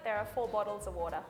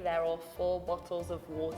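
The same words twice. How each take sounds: First: It is spoken in an Australian accent. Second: It is spoken in a British accent. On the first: "In Australia" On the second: "In the U K"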